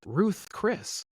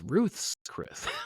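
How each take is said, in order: First: Ruth is said with no s sound after it. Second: Ruth is said with an s sound after it. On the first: This is how most people say the name. The speaker calls it wrong. "Everyone else says Ruth Chris" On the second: This is what the place is really called. The speaker calls it right. "It's Ruth's Chris"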